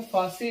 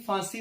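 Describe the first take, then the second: First: ਫਾਂਸੀ with an oral first vowel, as phasi; no nasal. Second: ਫਾਂਸੀ with a nasal long aa; nasalised vowel. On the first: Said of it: "ਇਸ ਨੂੰ ਫਾਂਸੀ ਨਹੀਂ". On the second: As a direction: send the first vowel of ਫਾਂਸੀ through the nose. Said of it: "ਫਾਂਸੀ ਪੜ੍ਹਨਾ ਹੈ". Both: Shown as a demonstration.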